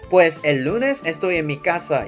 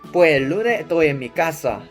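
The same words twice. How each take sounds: First: The s sounds are pronounced. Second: The s sounds are dropped.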